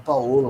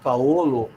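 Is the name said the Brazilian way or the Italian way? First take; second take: Brazilian; Italian. First: The name is said with Brazilian pronunciation. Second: The name is said with Italian pronunciation. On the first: The speaker calls it wrong. "o brasileiro resolve que com O fala Paolo, mas não é assim" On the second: The speaker calls it right. "quando pronuncio nomes em italiano, falo em italiano"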